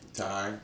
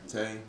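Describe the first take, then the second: First: The vowel sounds like 'eye'. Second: The vowel sounds like 'ay'. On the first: The speaker calls it wrong. "that's their first assumption is always tie" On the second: The speaker calls it right. "It's Tay"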